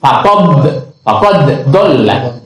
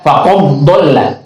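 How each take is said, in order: First: The first d is pronounced separately. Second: The first d merges into the following d. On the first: The speaker calls it right. "tidak diidghamkan" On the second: The speaker calls it wrong. "tidak dibaca faqadalla"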